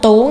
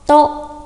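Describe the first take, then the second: First: The word is said with a sharply rising pitch. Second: The word is said level with a puff of air. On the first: The speaker calls it wrong. "Có rất nhiều bạn đọc sai phát âm là tố nghe rất là kinh" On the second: The speaker calls it right. "Chúng ta đọc bật hơi này"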